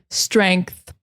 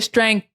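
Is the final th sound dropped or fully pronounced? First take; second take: fully pronounced; dropped. First: The final th is pronounced strongly and clearly. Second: The final th is weak or missing. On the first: The speaker calls it right. "the tongue between the teeth. Strength, th, th, th, th, strength, like that" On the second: The speaker calls it wrong. "you're not saying the whole word. It's not as clear"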